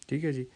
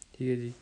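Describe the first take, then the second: No difference in how they are said.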